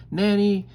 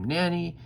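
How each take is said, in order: First: High, loud yell for help; screaming. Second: High but milder yell; mimicked scream. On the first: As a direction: tutor screaming for the nanny. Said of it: "and then he screams". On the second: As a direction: echo the scream, less loud. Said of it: "And then I scream". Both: A narrator's reading.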